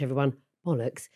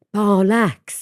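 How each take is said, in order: First: Said in the usual way. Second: Barlacks sung out in a Welsh lilt; Welsh accent. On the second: Retold or imitated. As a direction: give Barlacks a Welsh swing. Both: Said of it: "they don't just say".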